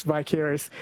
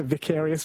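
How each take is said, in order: First: "vicarious" with a long i, vy-CARE-ee-us; first syllable of "vicarious" rhymes with "eye"; long-i pronunciation. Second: "vicarious" with a short i, vik-AIR-ee-us; first syllable of "vicarious" rhymes with "pick"; short-i pronunciation. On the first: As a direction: say "vicarious" opening like "vie". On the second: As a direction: say "vicarious" opening like "Vic". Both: Shown as a demonstration. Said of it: "when it comes to vicarious, vicarious".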